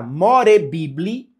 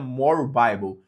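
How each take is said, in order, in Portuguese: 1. A última palavra é lida como está escrita, como 'bibli'. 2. A última palavra soa como 'Bible' em inglês, 'baibol'. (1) "Se digita More Bibli" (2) "mas se pronuncia More Bible"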